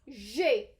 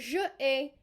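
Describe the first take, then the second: First: The two words merge into one syllable. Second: The two words are said as two syllables. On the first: The speaker calls it right. "I will say j'ai" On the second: The speaker calls it wrong. "not je ai"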